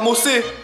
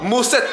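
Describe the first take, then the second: First: The word ends on a vowel without t. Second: A final t sound is pronounced. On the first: The speaker calls it wrong. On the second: The speaker calls it right.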